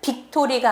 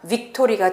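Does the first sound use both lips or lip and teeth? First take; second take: both lips; lip-teeth. First: The first sound is made with both lips. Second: The first sound is made with lip and teeth. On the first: The speaker calls it wrong. "빅토리가 아니라" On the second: The speaker calls it right. "F와 B가 합쳐진 발음"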